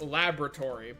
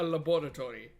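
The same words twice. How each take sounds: First: It is said with an American pronunciation. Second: It is said with a non-American pronunciation. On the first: "in American English it's pronounced laboratory" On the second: "but it is a laboratory"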